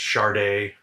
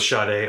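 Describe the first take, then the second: First: The name is said with an R sound. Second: The name is said with no R sound. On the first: The speaker calls it right. "a non-existent R, is actually the correct pronunciation" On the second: The speaker calls it wrong. "So I go with [name]. Apparently I'm saying it wrong"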